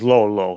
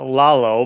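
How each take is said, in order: First: The first vowel sounds like the one in 'low'. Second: The first vowel sounds like the one in 'lot'. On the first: This is how people abroad said the name. The speaker calls it wrong. "everyone says uh, Mister and Missus Lolo" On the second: This is how the family says the name. The speaker calls it right. "It's pronounced uh, Lalo"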